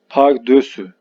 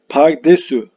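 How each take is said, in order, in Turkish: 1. İkinci ünlü ö sesi. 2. İkinci ünlü e sesi. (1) "Doğru kullanım pardösü" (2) "Pardesü değil"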